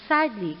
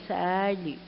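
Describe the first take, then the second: First: Said in the usual way. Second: SADLY drawn out, falling and softer. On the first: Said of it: "it means". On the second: Shown as a demonstration. Teacher shows what plaintively means, 'sadly' said mournfully. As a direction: stretch 'sadly' into a mild mock lament. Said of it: "calling in a sad way".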